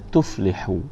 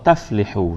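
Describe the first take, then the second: First: The first syllable has a 'u' vowel. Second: The first syllable has an 'a' vowel. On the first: The speaker calls it right. "Kena tuflihu. Kerana aflaha yuflihu" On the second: The speaker calls it wrong. "Tak betul kalau kita qulu la ilaha illallah taflihu. Salah ni tuan-tuan"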